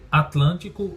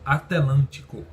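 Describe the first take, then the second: First: The t and l are joined directly. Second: An extra vowel separates the t and l.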